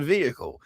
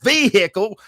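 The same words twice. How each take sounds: First: It has a standard, neutral pronunciation. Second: It has a Southern country pronunciation. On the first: The speaker calls it right. "because it's a vehicle" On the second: The speaker calls it wrong. "I didn't have to say vehicle"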